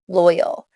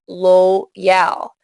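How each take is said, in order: First: The stressed vowel is short. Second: The stressed vowel is long. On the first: The speaker calls it right. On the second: The speaker calls it wrong.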